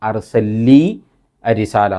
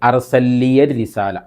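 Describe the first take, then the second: First: The words join with no ya sound between. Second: The words join with a ya sound between.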